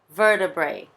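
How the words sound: American accent, with the t sounding like r. "Eu tenho um sotaque bem americano, né? ... esse T sai um pouquinho com som de R"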